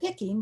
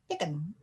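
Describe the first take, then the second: First: The word ends with a full -ing sound. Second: The word ends with a clipped -in sound. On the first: "you might say picking" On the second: "if you speak in a southern Indiana accent like I grew up speaking, you don't say picking, you say pickin'"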